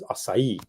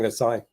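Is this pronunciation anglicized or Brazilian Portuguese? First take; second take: Brazilian; anglicized. First: It is pronounced the Brazilian Portuguese way. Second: It is pronounced an anglicized way. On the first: The speaker calls it right. "The actual pronunciation is acai" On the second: The speaker calls it wrong. "I was pronouncing acai"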